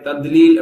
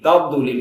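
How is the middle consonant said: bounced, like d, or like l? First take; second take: like d; bounced. First: The middle consonant is pronounced as a d sound. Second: The middle consonant is said with an echoing bounce. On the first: "தால் மாதிரி தத்லீல் அப்படி சொல்லுவாங்க அதுவும் தப்பு" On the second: "அதுல கல்குலா செஞ்சிருவாங்க"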